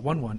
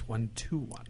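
First: Two ones are said with nothing between them. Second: The word to is said between the ones. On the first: The speaker calls it wrong. "It's not 1-1" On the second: The speaker calls it right. "it's 1-2-1"

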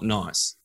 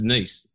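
First: The vowel sounds like 'eye', as in nice. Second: The vowel sounds like 'ee', as in niece. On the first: The speaker calls it wrong. "not Nice" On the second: The speaker calls it right. "I'm sure it's Brice, just like in, you know, it's Nice"

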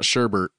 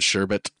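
First: The second syllable has an r sound. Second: The second syllable has no r sound. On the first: The speaker calls it wrong. "it's not sherbert. That's not a word" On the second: The speaker calls it right. "I said sherbet"

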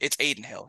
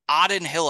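First: The first name begins with an 'aid' vowel. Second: The first name begins with an 'awe' vowel. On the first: The speaker calls it right. "He said it correctly" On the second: The speaker calls it wrong. "I said Aiden Hill's name like Auden Hill"

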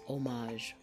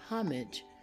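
First: The word begins with no H sound. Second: The word begins with an audible H sound. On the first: "or without the H sound" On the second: "can be pronounced with an H sound"

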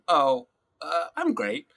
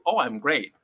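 First: It is said with a hesitant pause. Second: It is said smoothly with no hesitation.

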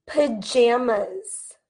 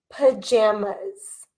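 Both takes have the same delivery.

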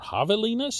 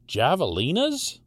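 First: The word is pronounced the Spanish way. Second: The word is pronounced the English way.

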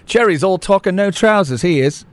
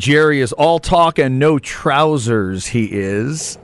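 First: It is said in a put-on English accent. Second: It is said in the speaker's normal accent. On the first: The speaker calls it right. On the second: The speaker calls it wrong.

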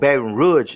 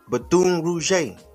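First: The name is said the local way. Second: The name is said in a non-local way.

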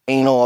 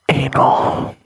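First: It is said at normal conversational speed. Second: It is said slowly in a sultry voice.

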